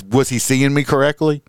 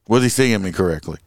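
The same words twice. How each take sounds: First: "me" lifted and leaned on; stress on me. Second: Said in the usual way. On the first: Shown as a demonstration. Cop mocks the driver's wandering eye, leaning on "me". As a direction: hit "me" in "was he seeing me correctly".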